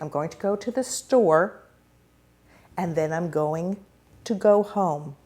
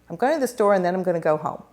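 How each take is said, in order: First: It is chunked with deliberate pauses. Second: It is run together without pauses.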